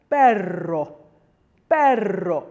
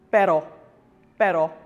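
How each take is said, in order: First: Perro with a long trilled double R; louder perro, savor the rolling R; heavily rolled R. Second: Pero with a single quick flick of the R; louder, short pero, R barely rolled; lightly rolled R. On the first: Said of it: "you need to roll it quite a lot". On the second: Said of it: "we just roll it ever so slightly". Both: Shown as a demonstration.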